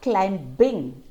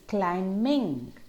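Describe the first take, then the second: First: The B sound is clearly pronounced. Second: The B sound is left out. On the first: The speaker calls it wrong. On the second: The speaker calls it right.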